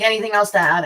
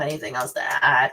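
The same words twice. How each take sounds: First: Said in the usual way. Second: "Anything else to add?" dropped much lower, ending on a rise; much lower repeat. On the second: Shown as a demonstration. Asks herself twice, second lower.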